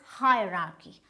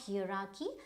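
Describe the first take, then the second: First: The word begins with a 'hire' sound. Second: The word begins with an 'air' sound. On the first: The speaker calls it right. "So it is hierarchy" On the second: The speaker calls it wrong. "not hierarchy, because it is not, uh, this is air"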